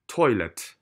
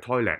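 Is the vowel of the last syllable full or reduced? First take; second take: reduced; full. First: The last syllable has a reduced, neutral vowel. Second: The last syllable has a full vowel like "let". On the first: The speaker calls it right. "記得啊洗手間係toilet toilet" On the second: The speaker calls it wrong. "唔係toilet 啊"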